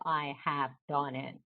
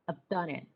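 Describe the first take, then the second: First: The word have is said in full. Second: The word have is shortened onto I. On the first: The speaker calls it wrong. "they never say" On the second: The speaker calls it right. "So short sounds"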